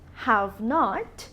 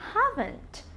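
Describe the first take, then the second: First: It is said as two full separate words. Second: It is said as one contracted word. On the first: "Haven't is a contraction of have not" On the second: "Haven't is a contraction of have not"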